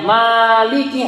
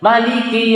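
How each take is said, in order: First: The first vowel is held long. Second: The first vowel is kept short. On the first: "Kalau panjang Maliki harusnya ada alif" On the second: "menghilangkan alif di mimnya"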